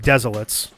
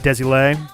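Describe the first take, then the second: First: The name has z sounds in both places. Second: The name is said with French sounds. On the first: "the lazy way of pronouncing it" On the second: "the more French"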